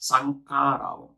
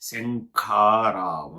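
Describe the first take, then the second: First: It begins with a plain s sound. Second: It begins with a sh sound. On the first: The speaker calls it wrong. "శంఖారావాన్ని కాస్త శంఖారావం. అది కూడా ఏంటి ఒత్తు ఖా కూడా కాదు" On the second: The speaker calls it right. "చెప్పు పలుకు నాతో పాటి"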